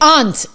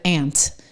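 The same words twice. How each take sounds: First: The word is said in a New Hampshire accent. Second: The word is said in a non-New Hampshire accent. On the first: "We say aunt" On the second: "instead of aunt"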